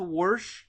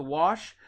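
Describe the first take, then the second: First: "wash" as wursh, R added; Appalachian R. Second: Said in the usual way. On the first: Shown as a demonstration. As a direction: slip a strong R into "wash". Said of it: "they add an R to wash". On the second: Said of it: "add an R to wash".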